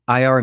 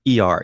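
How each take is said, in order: First: "I R" with I like eye; "I R", opening on a long eye sound; letter I pronunciation. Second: "E R" with E like ee; "E R", opening on a long ee sound; letter E pronunciation. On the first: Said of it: "So I call I R nineteen eighty". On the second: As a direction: say "E R" as two letters, ee-ar. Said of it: "you call it E R". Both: Shown as a demonstration.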